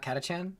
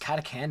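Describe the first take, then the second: First: The middle consonant is a ch sound. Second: The middle consonant is a hard k sound. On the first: The speaker calls it wrong. "not Katachan? Have I been saying it wrong this whole time?" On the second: The speaker calls it right. "it's Katakan"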